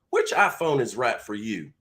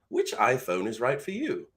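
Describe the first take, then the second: First: It is spoken in a Southern American accent. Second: It is spoken in an English accent. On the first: "Let's try it with a southern accent" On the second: "let's try it with an English accent"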